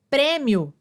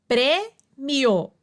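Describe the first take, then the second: First: Said in the usual way. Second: "prêmio" split as prê-mio; divisão silábica. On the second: Shown as a demonstration. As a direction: pause after prê in "prêmio", keep mio whole. ("prêmio" pausado, em prê-mio) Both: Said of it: "semivogal mais vogal na mesma sílaba".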